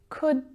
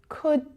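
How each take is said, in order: Both takes have the same delivery.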